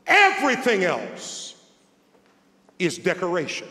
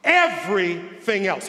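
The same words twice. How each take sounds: First: Everything raised and hit, is decoration falling away; stress on everything. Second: Everything punched at the start; stress on everything. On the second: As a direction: lean hard on Everything, then pause. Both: Shown as a demonstration. Preacher repeating the quote to the congregation, stress on Everything. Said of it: "I just want that to sink in".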